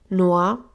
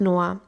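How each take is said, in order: First: Amused, questioning rise on "Noah?". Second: Said in the usual way. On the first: A narrator's reading. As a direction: tease out "Noah?" with an amused upward lilt. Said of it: "in einem amüsierten Tonfall". (amüsiert fragend „Noah?“ mit steigender Melodie)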